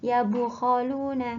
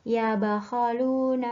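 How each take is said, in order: First: The b is followed by a u vowel. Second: The b is followed by an a vowel. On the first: "pakai dhamma" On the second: "dapat dibaca fathah"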